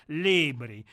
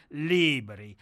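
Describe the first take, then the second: No difference in how they are said.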